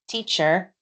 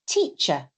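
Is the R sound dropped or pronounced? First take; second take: pronounced; dropped. First: The R sound at the end is pronounced. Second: The R sound at the end is dropped. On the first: The speaker calls it wrong. "I don't say teacher" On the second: The speaker calls it right. "I say teacher. There is no R, I've dropped it"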